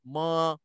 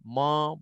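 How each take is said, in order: First: The syllable is thin, with a light, open vowel. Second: The syllable is thickened, with a darker, rounded vowel. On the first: The speaker calls it right. "Beza kan?" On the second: The speaker calls it wrong. "jangan tebalkan mim"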